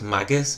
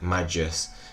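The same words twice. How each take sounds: First: The name begins like the word maggot. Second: The name begins like the word magic. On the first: This is the accepted pronunciation. "I know it's Magus" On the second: This is the speaker's preferred pronunciation. "I want to pronounce it Magus, because like magic"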